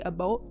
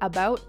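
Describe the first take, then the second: First: The word is said with a Canadian vowel. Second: The word is said with an American vowel. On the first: The speaker calls it wrong. "and not the about" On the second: The speaker calls it right. "most characters are American. So you have to say like about"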